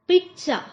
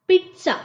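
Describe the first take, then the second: No difference in how they are said.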